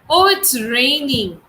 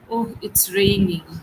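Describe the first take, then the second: First: The voice sounds happy and pleased. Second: The voice sounds sad and disappointed. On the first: The speaker is glad it is raining. "I'm very happy it is raining" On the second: The speaker is unhappy it is raining. "That means I'm sad about the fact that it is raining"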